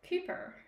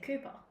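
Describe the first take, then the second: First: The final r sound is pronounced. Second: The final r sound is dropped. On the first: "he says the er noise" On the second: "whereas the rest of us say"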